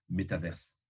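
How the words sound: It mixes French and American English pronunciation. The speaker wants a middle ground. "si tu veux être entre les deux, tu fais"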